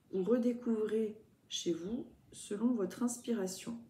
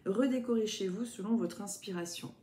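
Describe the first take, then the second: First: "redécouvrez" read as a plain misreading, said where "redécorez" belongs; "redécouvrez" read aloud by mistake, with no stress or pause; misread word. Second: "Redécorez" read correctly, with the stress on "Redécorez"; "Redécorez" said clearly as the right word; corrected word. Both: Shown as a demonstration. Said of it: "n'importe quoi".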